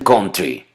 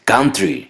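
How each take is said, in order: First: The first vowel sounds like an o. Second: The first vowel sounds like an a. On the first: The speaker calls it wrong. "la pronuncian country" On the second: The speaker calls it right. "la letra O se pronuncia como A ... Lo correcto es country"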